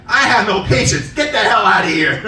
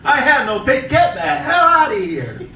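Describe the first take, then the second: First: Mock snap. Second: Breaking up laughing, slow and drawn out; can't finish the line for laughing; laughing repeat. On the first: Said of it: "I said". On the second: Real, not acted. Comic repeating his put-down to the customer, laughing through it.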